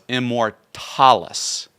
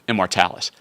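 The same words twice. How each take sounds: First: The word is pronounced in a Latin style. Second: The word is pronounced in a modern English style. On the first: "That's the Latin way of, of saying Immortalis" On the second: "the modern English pronunciation of Immortalis"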